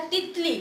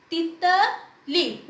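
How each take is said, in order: First: Said in the usual way. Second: तितली very slowly, ending on a long ली; gentle ति, strong ली. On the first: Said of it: "मैंने पढ़ा तितली". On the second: Shown as a demonstration. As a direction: break तितली up, stretching the ली. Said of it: "मैंने ती को धीरे से बोला".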